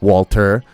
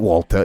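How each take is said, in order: First: The R at the end is strong. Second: The R at the end is dropped. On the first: This is how the character actually says it. The speaker calls it right. "there's like extra R, not none" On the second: This is how the memes say it. The speaker calls it wrong. "He doesn't say it like that"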